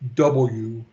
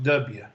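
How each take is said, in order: First: The letter is said the non-local way. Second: The letter is said the local way. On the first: "If you're not from around here, it's pronounced W" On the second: "If you're around here, it's pronounced W"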